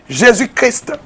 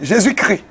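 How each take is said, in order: First: Christ ends with the final st sounds. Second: Christ ends on the vowel, like 'cri'. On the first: It honours the name as noble and royal. The speaker calls it right. "Il faut prononcer Jésus-Christ" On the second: It is a mocking form of the name. The speaker calls it wrong. "on dit Jésus-Christ. Vraiment, c'est moqueur. Laissez-le cri là"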